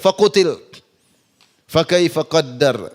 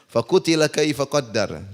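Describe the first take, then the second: First: There is a stop after the first word. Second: The words run on without a pause. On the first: "dia berhenti di situ" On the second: "Biasanya orang baca"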